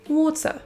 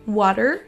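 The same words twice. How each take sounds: First: The ending is a schwa with no R. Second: The ending has a schwa followed by an R. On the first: "et ensuite l'accent britannique" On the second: "d'abord l'accent U S"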